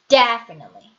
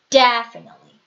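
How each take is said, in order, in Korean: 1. 첫 음절은 세고 길어요. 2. 첫 음절은 세고 길어요.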